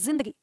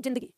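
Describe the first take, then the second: First: The first sound follows the original Urdu pronunciation. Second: The first sound follows a plain Hindi pronunciation. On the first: The speaker calls it right. "उच्चारण होता है जिंदगी" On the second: The speaker calls it wrong. "ना कि जिंदगी"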